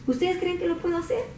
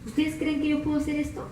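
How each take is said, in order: First: Calm and gentle. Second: Soft, calm question; calm and gentle. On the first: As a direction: ask as if nothing were wrong. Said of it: "Como bien quitado la pena". (pregunta calmada, sin preocupación) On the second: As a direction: ask gently, quietly. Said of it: "bien calmadito le dice el Señor Jesús". (pregunta tranquila y suave) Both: Acted.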